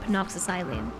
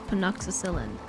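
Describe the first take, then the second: First: The word ends with a long 'silene' sound. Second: The word ends with a short 'cillin' sound. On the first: The speaker calls it wrong. "I have ... pronounced it penoxysilene" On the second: The speaker calls it right. "that's probably how you say this"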